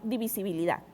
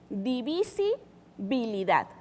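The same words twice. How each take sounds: First: The word is said very fast. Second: The word is said slowly.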